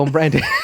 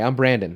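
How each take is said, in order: First: It is said in a put-on British accent. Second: It is said in the speaker's own plain accent. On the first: The speaker is playing a cast British role. "we're casting you to be a British person" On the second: This is how the speaker really sounds. "This is my voice"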